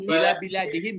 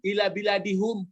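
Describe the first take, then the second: First: The last word ends with the syllable 'him'. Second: The last word ends with the syllable 'hum'. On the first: The speaker calls it right. "ila bila dihim ya" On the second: The speaker calls it wrong. "jangan ila bila dihum"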